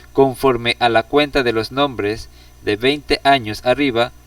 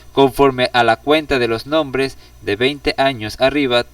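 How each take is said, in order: The two takes are said the same way.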